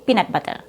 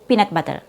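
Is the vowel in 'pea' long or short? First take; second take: short; short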